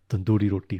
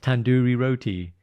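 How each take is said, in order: First: It is said with native Punjabi sounds. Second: It is said with anglicized English sounds. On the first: The speaker calls it right. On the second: The speaker calls it wrong.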